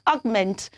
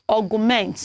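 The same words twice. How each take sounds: First: It is said with just two syllables. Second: An extra vowel splits it into three syllables. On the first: The speaker calls it right. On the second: The speaker calls it wrong.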